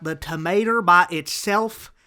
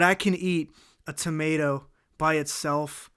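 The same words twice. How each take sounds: First: Put-on TOMATO said "tuh-MAY-ter" in a loud country-style accent; hammy accent, "by" flattened to "bah" in "by itself"; put-on drawling accent. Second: Said in the usual way. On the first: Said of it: "doing the accent". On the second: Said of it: "I don't know why I'm doing the accent".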